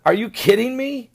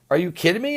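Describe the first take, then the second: First: Are you kidding me thrown out higher, incredulous; mock disbelief. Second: Said in the usual way. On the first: Lavrov scoffing at the reporter, mock disbelief. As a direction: scoff at the absurd question. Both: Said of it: "turned around and said".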